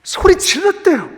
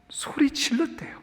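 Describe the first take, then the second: First: 소리 said higher and stronger; preacher raises the cry; raised voice. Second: Breathy whisper, barely voiced; whispered report of the cry. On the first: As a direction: lift it out after the whisper. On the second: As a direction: hush it like a secret. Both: Shown as a demonstration.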